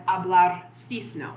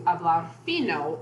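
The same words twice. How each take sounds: First: "fisno" with an extra s before the n; added S. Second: Said in the usual way. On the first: Shown as a demonstration. Lecturer showing overcorrected Spanish, added S in "fisno". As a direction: slip an s into fino, "fisno". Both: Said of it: "adding an S into hablar fino".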